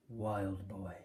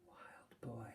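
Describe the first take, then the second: First: Said in the usual way. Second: Breathy whispered repeat, much softer. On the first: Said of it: "said the showman". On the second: Acted. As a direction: barely breathe the name. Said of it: "repeated the name softly".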